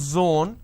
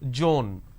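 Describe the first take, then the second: First: The word begins with a z sound. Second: The word begins with a j sound. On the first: The speaker calls it right. "Instead of saying zone" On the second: The speaker calls it wrong. "They sometimes interchange as well... they pronounce this as zone"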